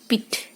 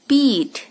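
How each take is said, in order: First: The vowel is short and light. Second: The vowel is long and heavy. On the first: The speaker calls it wrong. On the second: The speaker calls it right.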